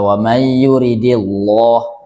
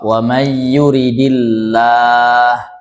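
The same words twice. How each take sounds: First: The L in 'llah' is heavy and thick. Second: The L in 'llah' is light and thin. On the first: The speaker calls it wrong. "Jangan pula dibaca ... ini salah" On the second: The speaker calls it right. "kalau dia dibaca tarkik didahului kasrah"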